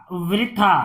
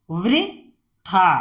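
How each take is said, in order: First: Said in the usual way. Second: "वृथा" slowly, in two separated parts; syllable by syllable. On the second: Shown as a demonstration. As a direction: split "वृथा" with a pause inside. Teacher sounds out, then blends. ("वृथा" को तोड़कर पढ़ना)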